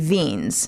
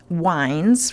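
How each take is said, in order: First: The name has an 'ee' vowel, German style. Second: The name has an 'eye' vowel, English style. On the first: "if I really went with a German, it would be Wiens" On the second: "If it was the English pronunciation, we'd say it was wines"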